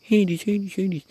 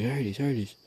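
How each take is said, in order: First: Very high, loud put-on voice; mock frantic calling of a dog; mimicked woman calling. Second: Slightly raised mock call, no real scream; retold dog call. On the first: Other owner calling the wrong dog, shrill mimicry. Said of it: "She was calling my dog". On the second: Owner calling the dog off, mild retold yell. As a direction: call the dog, a little higher. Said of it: "like, screaming".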